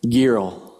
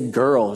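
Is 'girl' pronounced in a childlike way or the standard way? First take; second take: childlike; standard. First: The word is pronounced in a childlike, altered way. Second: The word is pronounced in the standard adult way. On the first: The speaker calls it wrong. "She would say girl" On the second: The speaker calls it right. "she couldn't say girl"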